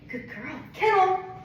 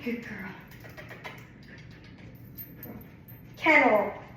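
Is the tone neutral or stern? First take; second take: neutral; stern. First: The command is said in a neutral tone. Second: The command is said in a stern tone. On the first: "Kind of neutral tone is what I was doing" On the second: "I'll do a stern tone"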